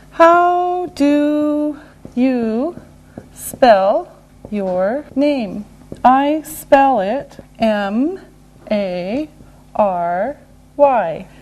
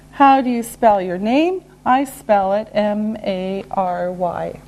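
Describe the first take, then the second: First: Drawn-out words, letter by letter; slow and deliberate. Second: Said in the usual way. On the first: Shown as a demonstration. Teacher modelling name spelling, very slowly. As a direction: stretch and separate each word and letter.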